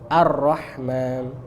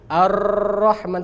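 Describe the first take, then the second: First: The r is trilled with two or three taps. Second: The r is trilled for a long time. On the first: The speaker calls it right. "Dua atau tiga takrir aja" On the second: The speaker calls it wrong. "terlalu banyak"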